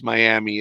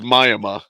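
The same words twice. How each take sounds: First: Miami is said in a Spanish accent. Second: Miami is said in a rural hick accent.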